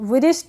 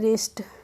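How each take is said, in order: First: The word begins with a W sound. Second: The word begins with an R sound. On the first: The speaker calls it wrong. "विरिस्ट नहीं पढ़ेंगे" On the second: The speaker calls it right. "तो इसको हम पढ़ेंगे रिस्ट"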